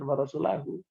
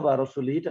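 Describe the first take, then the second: First: The word ends with an a vowel, then hu. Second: The word ends with an i vowel, then hi. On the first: God and the messenger both disown the idolaters. The speaker calls it right. "dinasabkan rasulnya itu" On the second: God disowns both the idolaters and the messenger. The speaker calls it wrong. "Kalau Anda baca wa rasulihi, berarti musyrik dan rasul sama-sama dilepas oleh Allah"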